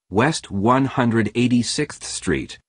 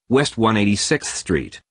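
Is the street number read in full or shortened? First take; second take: full; shortened. First: The street number is read out in full. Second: The street number is read in shortened form. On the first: The speaker calls it right. "the address is pronounced as" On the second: The speaker calls it wrong. "and not"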